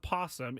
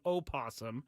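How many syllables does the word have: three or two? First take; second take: two; three. First: The word has two syllables, no initial vowel. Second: The word has three syllables, starting with a vowel. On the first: The speaker calls it wrong. "It's not a possum" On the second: The speaker calls it right. "It's an opossum"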